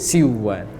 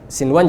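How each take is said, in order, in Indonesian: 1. Bunyi n dilebur ke dalam w. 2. Bunyi n dilafalkan dengan jelas sebelum w.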